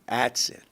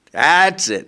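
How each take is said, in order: First: Said in the usual way. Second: "That's it." higher and much louder, final; exasperated outburst. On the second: Retold or imitated. Desperate father gives up.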